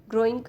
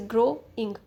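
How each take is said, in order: First: Said in the usual way. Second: "ग्रोइंग" broken in two, a gap before the final इंग; split into syllables. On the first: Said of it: "जैसे ग्रोइंग दो syllable है". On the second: Shown as a demonstration. Teacher showing learners two syllables, "ग्रोइंग" said in two separate parts. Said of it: "दो syllable है".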